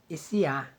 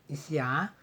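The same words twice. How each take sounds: Both takes have the same delivery.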